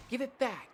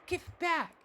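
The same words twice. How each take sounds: First: Put-on high child's whining demand; high petulant child's voice; whiny demand. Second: Put-on much higher, escalating child's shriek; very high wailing child's voice; shrill child demand. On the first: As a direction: insist like a spoiled kid. Child demands the rose back. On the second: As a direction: push the demand up into a tantrum.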